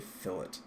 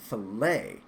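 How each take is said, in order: First: It does not sound like filet mignon. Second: It sounds like the steak name filet mignon. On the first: The speaker calls it right. "it is a fillet, not to be confused with a nice filet mignon steak" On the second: The speaker calls it wrong. "I thought they were saying filet, as in filet mignon"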